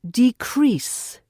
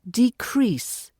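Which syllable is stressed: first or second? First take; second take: second; second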